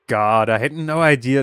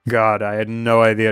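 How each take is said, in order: First: It is said in a normal voice. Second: It is said in a put-on deep voice. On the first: The speaker calls it wrong. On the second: The speaker calls it right.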